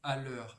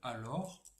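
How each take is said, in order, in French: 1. La voyelle après le L est douce et relâchée. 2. La voyelle après le L est un o ouvert plein.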